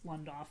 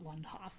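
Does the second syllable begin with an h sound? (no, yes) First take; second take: no; yes. First: The second syllable begins without an h sound. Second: The second syllable begins with an h sound. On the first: The speaker calls it right. "it's Lundoff" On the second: The speaker calls it wrong. "I'm just thrilled you didn't make it Hoff, because a lot of people do"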